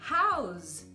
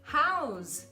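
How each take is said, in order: The two takes are said the same way.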